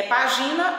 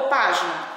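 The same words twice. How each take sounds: First: "página" stressed on the middle syllable, pa-GI-na; wrong stress. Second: "página" stressed on the first syllable, PÁ-gi-na; correct stress. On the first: Teacher asking pupils which is correct, "página" misstressed as pa-GI-na. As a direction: say "página" as if it had no accent mark. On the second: Teacher offering pupils the accented word, "página" stressed PÁ-gi-na. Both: Shown as a demonstration. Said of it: "a pronúncia vai ficar errada".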